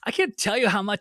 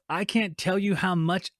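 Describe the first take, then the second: First: It is read in a whiny voice. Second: It is read in a plain voice.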